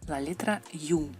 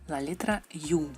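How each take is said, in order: The two takes are said the same way.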